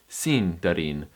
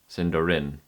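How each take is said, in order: First: The stress is on the first syllable. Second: The stress is on a later syllable. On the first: The speaker calls it right. "you're going to put it on the sin instead" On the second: The speaker calls it wrong. "that's way wrong"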